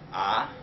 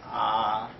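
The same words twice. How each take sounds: First: The pitch rises throughout. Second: The pitch stays level throughout. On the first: "like a raising up ah" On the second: "the first one is like ah, it's like a flat"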